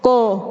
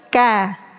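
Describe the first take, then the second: First: The k syllable sounds thick, like ko. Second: The k syllable sounds thin, like ka. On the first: The speaker calls it wrong. "Menebalkan huruf kaf" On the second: The speaker calls it right. "bukan ko tapi ka"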